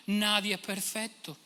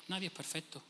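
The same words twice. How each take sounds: First: "Nadie es perfecto" drawn out slowly in a whiny mock voice; mock excuse. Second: Said in the usual way. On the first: Preacher ends the mocked excuse, slow and whiny. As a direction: shrug it off slowly, mocking.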